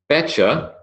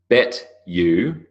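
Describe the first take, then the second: First: The words blend into a short reduced form. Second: Each word is said fully and separately.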